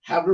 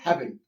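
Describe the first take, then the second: First: It is said as two full separate words. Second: It is said as one contracted word. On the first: "हैव नॉट होता है" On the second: "तो क्या बोलते हैं"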